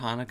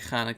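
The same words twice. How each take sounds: First: It begins with a soft, plain h sound. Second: It begins with a hard, throaty h sound. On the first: The speaker calls it wrong. "instead of Hanukkah" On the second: The speaker calls it right. "I'm going to say Hanukkah"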